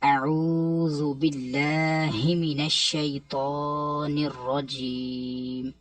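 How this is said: The words are said joined in one flow.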